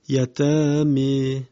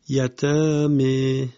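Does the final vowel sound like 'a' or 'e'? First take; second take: e; e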